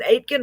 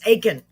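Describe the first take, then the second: First: The T in the middle is pronounced. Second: The T in the middle is silent. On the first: The speaker calls it wrong. "I thought I had it right" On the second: The speaker calls it right. "The silent T"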